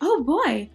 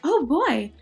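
First: It is said in an excited, happy tone. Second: The same.

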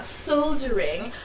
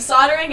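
First: The word has a non-American pronunciation. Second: The word has the speaker's American pronunciation. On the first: "and not soldering" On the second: "saying soldering ... I'm American"

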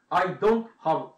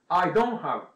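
First: The final t of don't is clearly pronounced. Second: The final t of don't is dropped. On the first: The speaker calls it wrong. "I don't have TV じゃなくて" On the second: The speaker calls it right. "最後のt っていうのを発音しません"

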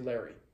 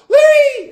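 First: The word is said calmly and quietly. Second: The word is said loudly and excitedly. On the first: The speaker calls it right. "And say it like that" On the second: The speaker calls it wrong. "A lot of people are like"

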